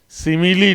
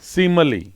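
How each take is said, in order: First: The middle vowel is a full clear 'i'. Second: The middle vowel is a weak schwa. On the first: The speaker calls it wrong. "सिमिली नहीं है" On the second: The speaker calls it right. "ये स्वा वाला, वीक वाला"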